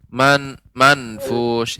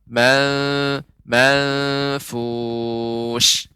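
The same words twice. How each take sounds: First: The n is pressed and pronounced clearly. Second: The n is hidden into a nasal sound. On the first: The speaker calls it wrong. "Tidak boleh juga nun ini jadi eh, ditekan" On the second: The speaker calls it right. "tapi dia ikhfa"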